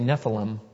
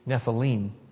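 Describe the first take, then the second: First: It is said the common English way. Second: It is said the Hebrew way. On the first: The speaker calls it wrong. "It's common to hear people say Nephilim, but that's actually not the correct pronunciation" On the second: The speaker calls it right. "It would be Nephilim"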